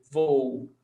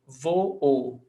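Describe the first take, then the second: First: Said in the usual way. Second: Voo split into "vo-o"; two syllables. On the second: Shown as a demonstration. Teacher demonstrating a hiatus, voo said as two syllables "vo-o". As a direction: give each o in voo its own beat. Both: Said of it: "two syllables".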